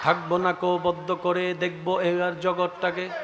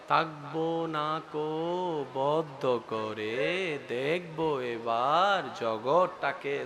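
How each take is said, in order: First: It is recited in the poem's usual style. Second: It is recited in another poet's style.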